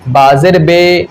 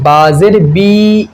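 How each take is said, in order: First: The vowel after b is an ay sound. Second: The vowel after b is a clear ee sound. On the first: The speaker calls it wrong. "मजहूल कैसे? ... इस तरीके से हमें नहीं पढ़ना है" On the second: The speaker calls it right. "इसी तरीके से हमें बाजेर बी नीचे गिरा करके पढ़ना है"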